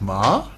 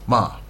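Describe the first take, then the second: First: The pitch sounds like a surprised question. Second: The pitch sounds like a firm command. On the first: "like a surprise" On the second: "like I'm telling you to do something"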